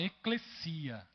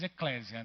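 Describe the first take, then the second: First: The middle consonant is a hissing s sound. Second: The middle consonant is a buzzing z sound. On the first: This is the original Greek pronunciation. "Em grego mesmo, a gente fala eclesia... Ela tem um sigma lá. Não zeta" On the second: This is the Portuguese-adapted pronunciation. "a gente fala no português eclésia... Ficou meio que aportuguesada"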